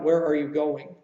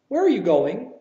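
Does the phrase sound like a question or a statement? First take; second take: statement; question. First: The voice stays level like a statement. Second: The voice changes its tune at the end. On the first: It sounds more like a statement. The speaker calls it wrong. "more of a statement that way" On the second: It asks for information. The speaker calls it right. "your inflection changes"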